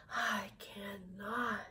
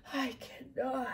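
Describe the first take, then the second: First: Put-on slow, exhausted whisper of an old engine; weary whisper. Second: Voiced, weary refusal of the old engine; tired old engine. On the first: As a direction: breathe it out with nothing left. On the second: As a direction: say it plainly tired, not whispered. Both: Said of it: "I'm making myself tired".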